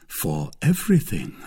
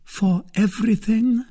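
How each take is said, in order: First: Firm pledge. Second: High lady's voice, rising question. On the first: Suitor pledging himself to the lady, firm and unhesitating. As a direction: answer the question with a settled, falling tone. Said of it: "cried D'Artagnan". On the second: Lady testing her suitor's readiness, high and questioning. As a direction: check the pledge in a high, searching voice. Milady questions his pledge. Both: A narrator's reading.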